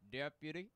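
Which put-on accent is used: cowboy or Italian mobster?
cowboy. It is said in a Western cowboy accent. The speaker calls it right. "Should have been like a cowboy"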